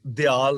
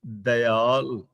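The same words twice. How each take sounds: First: ਦਿਆਲ said "di-aal", short i after the d; ਦਿਆਲ run together as dyaal; mispronunciation demo. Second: ਦਇਆਲ said slowly as "da-yaal", short a after d; ਦਇਆਲ drawn out with a clear "da" first; correct pronunciation. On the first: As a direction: say ਦਿਆਲ as di-aal, first vowel i. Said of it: "ਇਹਨੂੰ ਦਿਆਲ ਨਹੀਂ ਬੋਲਣਾ". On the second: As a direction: stretch ਦਇਆਲ into da-i-aal, very slowly. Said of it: "ਇਸ ਲਈ ਇਹਦਾ ਸ਼ੁੱਧ ਉਚਾਰਨ ਹੋਏਗਾ". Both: Shown as a demonstration.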